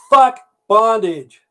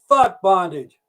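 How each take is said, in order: First: High, loud, slow drawn-out curse; acted outburst, pitched up and drawn out; punchline outburst. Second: High-pitched curse with falling end; repeated punchline. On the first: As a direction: holler it slowly, each word stretched. Punchline, first words after gag removed. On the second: Retold or imitated. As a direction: cry it out high, less drawn out.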